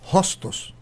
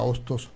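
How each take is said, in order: First: The name starts with a breathy h sound. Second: The name starts directly with a vowel sound.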